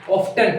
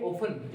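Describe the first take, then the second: First: "ऑफ्टन" with the t sounded, "off-tun"; wrong pronunciation. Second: "ऑफन" said "off-un", no t at all; silent t. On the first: Teacher showing how children say it, "ऑफ्टन" with sounded t. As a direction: voice the t clearly in "ऑफ्टन". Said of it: "इसको बच्चे ऐसे बोलते हैं". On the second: Teacher giving students the correct word, "ऑफन" with silent t. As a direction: drop the t in "ऑफन". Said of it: "इसे कहोगे". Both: Shown as a demonstration.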